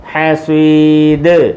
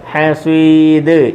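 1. വാക്ക് ശുദ്ധമായ d ശബ്ദത്തിലാണ് അവസാനിക്കുന്നത്. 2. വാക്ക് ശുദ്ധമായ d ശബ്ദത്തിലാണ് അവസാനിക്കുന്നത്.

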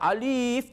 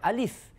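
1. Vokal pertama dibaca panjang. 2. Vokal pertama dibaca pendek. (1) "dibaca panjang alif tidak" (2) "tapi alif"

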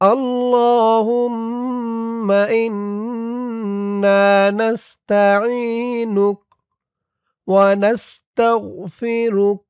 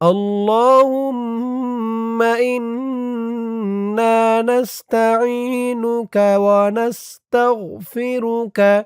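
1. nasta'inuk-এর পরে থেমে যায়, শেষ স্বরধ্বনি বাদ দিয়ে। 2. এটি থামা ছাড়াই চলতে থাকে, শেষ স্বরধ্বনি বজায় রেখে।

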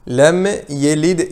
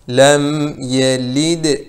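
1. m, ekstra bir ünlü sesiyle bırakılıyor. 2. m kapalı tutuluyor ve akıcı bir şekilde devam ediyor. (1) "Mime hareke vermiş oluruz. Veya kalkale gibi bir ses gelir. Bu da yanlış olmuş olur" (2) "Lem yelid akacak"

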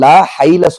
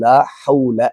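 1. இரண்டாவது சொல் 'ay' ஒலியுடன் சொல்லப்படுகிறது. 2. இரண்டாவது சொல் 'aw' ஒலியுடன் சொல்லப்படுகிறது. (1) "லா ஹைல சொல்லக்கூடாது" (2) "லா ஹவுல அப்படிதான் சொல்லணும்"

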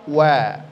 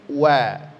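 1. Wa itu tipis, bibir senyum. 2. Wa itu tipis, bibir senyum.

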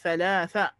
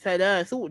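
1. Kata ini berakhir dengan vokal 'a'. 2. Kata ini berakhir dengan vokal 'u'. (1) "dengan mansub dengan dengan fathah" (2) "dengan dhammah"

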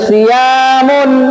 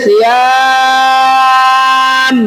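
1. শব্দটি একটি ছোট নাসিক্য 'উন' দিয়ে শেষ হয়। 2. শেষের অংশ বাদ যায় এবং স্বরটি দীর্ঘ টানা হয়।

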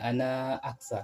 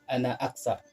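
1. Mahaba ang huling patinig ng unang salita. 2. Maikli ang huling patinig ng unang salita. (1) "Hindi mo pwede sabihin na" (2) "Mababawasan na yung kanyang long vowel"

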